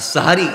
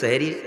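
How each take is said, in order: First: The first syllable has an 'a' vowel. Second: The first syllable has an 'e' vowel. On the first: The word means the pre-dawn meal. The speaker calls it right. "আর সাহারি যেটা রসুল কর্তৃক দিয়েছেন আমাদেরকে" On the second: The word means magic. The speaker calls it wrong. "এটাকে আবার সেহরি বলবেন না।"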